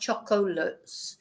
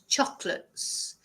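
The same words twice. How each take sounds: First: The middle O is sounded as a syllable. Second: The middle O is dropped and silent. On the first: The speaker calls it wrong. "It's not chocolates" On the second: The speaker calls it right. "We don't even pronounce the O"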